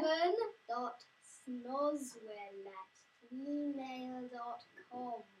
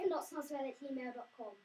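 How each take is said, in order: First: It is said slowly. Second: It is said at normal speed.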